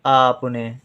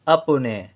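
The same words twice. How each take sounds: First: "आपने" with the opening aa held; long aa. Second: "अपने" with a quick first vowel; short a. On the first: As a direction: stretch the first vowel of "आपने". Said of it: "ज़्यादा देर तक आवाज़ निकालते हैं". ("आपने" का आ देर तक खींचकर) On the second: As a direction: start "अपने" on a brief a. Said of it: "कम समय लेते हैं". ("अपने" में छोटा अ) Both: Shown as a demonstration.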